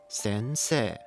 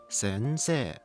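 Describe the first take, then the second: Both takes have the same delivery.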